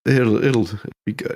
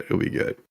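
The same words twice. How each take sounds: First: Said in the usual way. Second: Whispered aside. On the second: Real, not acted. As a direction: drop to a whisper. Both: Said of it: "got something going on".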